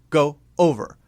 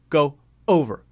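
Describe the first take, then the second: The two takes are said the same way.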